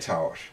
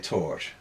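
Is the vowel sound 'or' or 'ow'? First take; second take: ow; or. First: The vowel is a short 'ow' sound. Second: The vowel is a long 'or' sound. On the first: Other speakers say it this way. "Some people will say tower" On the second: The speaker's own usual way. "but I say tor"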